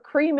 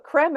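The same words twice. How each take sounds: First: Cream with a long 'ee'; English cream. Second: Creme with 'eh', rhyming with hem; French-style creme. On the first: Contrasting the coffee word, cream with English 'ee'. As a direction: say cream as 'kreem'. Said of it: "We put cream". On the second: Joking about coffee, creme said the French way, 'krem'. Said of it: "We don't put". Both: Shown as a demonstration.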